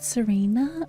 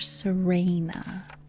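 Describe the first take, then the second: First: The middle syllable sounds like 'ree'. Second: The middle syllable sounds like 'ray'. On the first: "Re or Ray?" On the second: "Re or Ray?"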